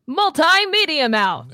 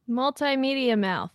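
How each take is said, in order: First: It is said with more energy. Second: It is said with less energy.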